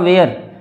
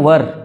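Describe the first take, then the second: First: It is said with a long diphthong, like wair. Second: It is said short, like wur. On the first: This is the older way of saying it. "पहले बोला जाता था वेयर" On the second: This is the current way of saying it. "लेकिन अब बोलते हैं वर"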